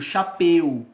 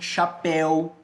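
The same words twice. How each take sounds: First: The diphthong is pronounced with a closed vowel. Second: The diphthong is pronounced with an open vowel. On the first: "Eu já fechei o ditongo" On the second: "quais são os ditongos abertos?"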